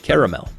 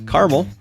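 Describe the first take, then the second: First: It is said the Eastern US way. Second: It is said the Western US way.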